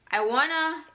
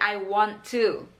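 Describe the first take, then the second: First: The words are run together quickly. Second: Each word is said fully and separately.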